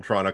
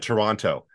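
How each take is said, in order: First: First "Toronto" with both T's sounded; outsider's Toronto. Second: "Toronto" as "Torono", no second T; local Toronto. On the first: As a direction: say "Toronto" with a clear second T. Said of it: "they said Toronto and not Toronto". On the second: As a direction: drop the last T from "Toronto". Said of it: "and not Toronto". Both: Shown as a demonstration.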